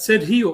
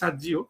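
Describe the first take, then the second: First: The middle consonant is a breathy h sound. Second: The middle consonant is a j sound. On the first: This is how Spanish speakers say the name. "এটা একটা স্প্যানিশ উচ্চারণ" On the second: This is how Americans might say the name. "ওরা আমেরিকাতে সার্জি বলতে পারে"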